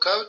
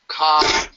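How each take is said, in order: First: The syllable ends with a rounded 'oh' vowel. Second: The syllable ends with an open 'ah' vowel. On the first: The speaker calls it wrong. "it's not so ko toa" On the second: The speaker calls it right. "it's important to pronounce that ka instead of ko"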